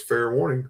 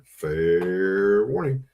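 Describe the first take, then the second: First: Said in the usual way. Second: Very slow, stretched out; slow drawn warning. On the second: Real, not acted. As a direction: drag each word out for effect.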